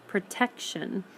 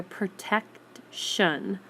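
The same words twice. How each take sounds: First: Said in the usual way. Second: "protection" slowly, as protect... shun; "protection" sounded out in two separated parts; split before shun. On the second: Shown as a demonstration. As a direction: break "protection" apart before a clear shun. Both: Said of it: "You hear the shun".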